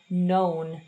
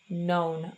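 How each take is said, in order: First: The vowel sounds like 'oh'. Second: The vowel sounds like 'oh'.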